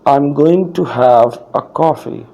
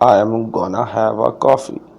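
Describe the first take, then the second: First: Going to is said in full. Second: Going to is reduced to gonna. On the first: "short form ना लगाऊं" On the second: "Gonna is the short form of going to"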